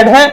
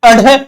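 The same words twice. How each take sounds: First: "अढे" said as a-ṛe, without a puff; tongue-flicked ड़. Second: "अढे" said as a-ṛhe, with a puff; tongue-flicked ढ़. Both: Shown as a demonstration. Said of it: "जीभ को झड़काया जाता है".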